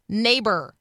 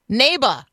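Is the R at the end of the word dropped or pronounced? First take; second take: pronounced; dropped. First: The final R sound is pronounced. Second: The final R sound is dropped. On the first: The speaker calls it right. "instead of neighbor" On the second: The speaker calls it wrong. "the director in every one of these ads is hearing neighbor"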